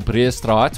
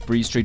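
First: The name is said with an Afrikaans pronunciation. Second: The name is said with an English pronunciation. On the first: "which is the actual pronunciation" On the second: "there's Bree Street"

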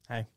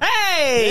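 First: It is said with low energy. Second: It is said with high energy.

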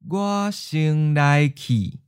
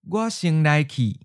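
First: It is said slowly and carefully. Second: It is said at a natural, quick pace. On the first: "and then slow" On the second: "Once natural speed"

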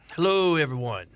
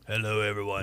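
First: It is said in a lighter, normal voice. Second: It is said in a deeper, bassier voice.

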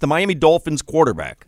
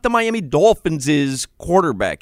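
First: No extra s syllable follows the word Dolphins. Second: An extra s syllable follows the word Dolphins. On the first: The speaker calls it right. "you don't say another S after" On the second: The speaker calls it wrong. "you're adding another S"

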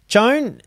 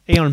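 First: The name begins with a hard J sound. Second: The name begins with a soft Y sound. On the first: "is that a Spanish name that I'm saying right?" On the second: "It's a soft J"

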